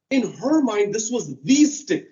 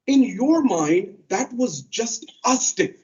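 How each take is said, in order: First: "her" leaned on, then "the stick" weighted; contrast stress. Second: Drawn out, each word weighted; slow right down to make it land; slow emphasis. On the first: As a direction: set her view against yours. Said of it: "contrasting her view". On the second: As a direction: stress on "your" and "just a stick", very slow. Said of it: "preacher stressing the point". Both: Real, not acted.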